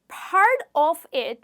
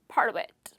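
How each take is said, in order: First: Each word is said separately, without linking. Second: The words run together, T linked to of.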